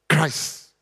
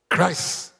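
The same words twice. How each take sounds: No difference in how they are said.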